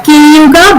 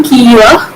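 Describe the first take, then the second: First: Kiyuga with every syllable sounded; standard Malayalam form. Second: Kiyua with a lengthened i and no g; Kartanadan dialect form. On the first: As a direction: say kiyuga in full, g included. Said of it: "in standard Malayalam". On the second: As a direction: stretch the first vowel of kiyua. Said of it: "e is lengthened here". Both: Shown as a demonstration.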